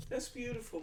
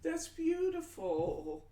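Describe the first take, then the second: First: Said in the usual way. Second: High, slow, drawn-out "that's beautiful"; swooning over the idea; gushing. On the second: Real, not acted. Reading a sweet viewer comment.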